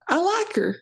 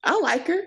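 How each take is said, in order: First: Put-on Southern accent, higher and stronger. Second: Put-on Southern accent. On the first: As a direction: lean harder into the Southern accent. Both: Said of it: "I'm not doing my Southern accent".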